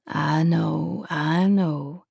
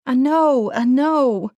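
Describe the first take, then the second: First: Gentle. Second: Loud, high anguished I know; anguished cry. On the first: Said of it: "he said gently". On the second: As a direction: cry out in pain, refusing it. Anguished reply. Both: A narrator's reading.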